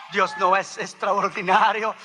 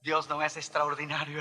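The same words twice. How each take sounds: First: Rhetorical question pushed out with force; emphatic preaching. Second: Said in the usual way. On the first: Real, not acted. Preacher repeats it to the congregation, emphatic preaching. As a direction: launch the climax with a firm, raised voice.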